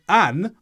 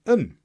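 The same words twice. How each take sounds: First: "an" with a full open a; full vowel. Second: "un" as a short schwa plus n; weakened vowel. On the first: Teacher contrasts strong and weak forms, "an" in full. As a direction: say "an" strong and unreduced. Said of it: "Instead of an". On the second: Teacher shows how "an" weakens, "un" with a schwa. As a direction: reduce "un" to a weak uhn. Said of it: "I said un". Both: Shown as a demonstration.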